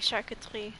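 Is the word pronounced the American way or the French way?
French. It is said with a French-style pronunciation. The speaker calls it right. "when they want to say charcuterie"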